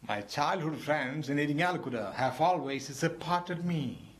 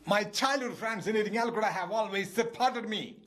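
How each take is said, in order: First: It is said in a sad, regretful voice. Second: It is shouted in an angry, exasperated voice.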